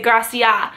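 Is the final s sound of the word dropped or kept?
dropped. The word ends without its final s sound. "they cut off like the end of all their words"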